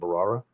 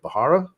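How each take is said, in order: First: The h sound in the middle is silent. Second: The h sound in the middle is pronounced. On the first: The speaker calls it right. "I think the H is silent" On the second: The speaker calls it wrong. "I always say it wrong"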